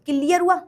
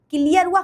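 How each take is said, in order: Both takes have the same delivery.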